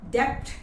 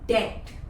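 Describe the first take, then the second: First: A B sound is pronounced before the T. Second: No B sound is pronounced before the T. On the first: The speaker calls it wrong. "Debt नहीं" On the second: The speaker calls it right. "वैसा ही debt में भी B silent है"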